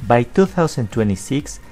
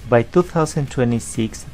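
Both takes have the same delivery.

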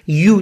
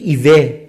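First: It is said like 'you', with a y sound. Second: It is said like 'ee-weh', without a y sound. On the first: The speaker calls it right. "دقیقاً یو" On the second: The speaker calls it wrong. "شما کلمه اولی رو شاید بگید ایوه"

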